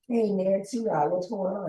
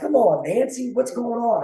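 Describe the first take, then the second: First: It is said flatly, with hesitant low energy. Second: It is said with lively, engaged energy.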